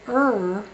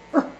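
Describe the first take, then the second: First: A big, forceful, heavy er sound. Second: A small, light, short er sound. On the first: The speaker calls it wrong. "If you say er, that's the big gun sound" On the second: The speaker calls it right. "a small dog with a small bark"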